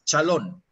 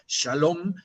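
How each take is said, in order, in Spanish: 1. Empieza con 'ch' y termina en 'n'. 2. Empieza con 'sh' y termina en 'm'.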